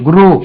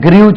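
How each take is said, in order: First: The vowel is a plain 'oo' sound. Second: The vowel has a 'yoo' glide before it. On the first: The speaker calls it right. "ஜிஆர்இடபிள்யூ குரூ" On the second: The speaker calls it wrong. "அது கிரியூ சொல்லக்கூடாது"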